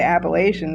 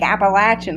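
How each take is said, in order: First: It is said the northern Appalachian way. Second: It is said the southern Appalachian way. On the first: This is how people up north say it. "when I say Appalachian" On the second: This is how people down south say it. "They're like Appalachian"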